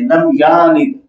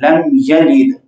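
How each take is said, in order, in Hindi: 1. y के बाद वाला स्वर लंबा खींचा जाता है। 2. y के बाद वाला स्वर छोटा रखा जाता है।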